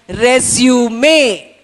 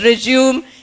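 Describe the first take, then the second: First: The final E is sounded. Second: The final E is silent. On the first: The speaker calls it right. "it's pronounced as resume" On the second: The speaker calls it wrong. "The word is not pronounced as resume"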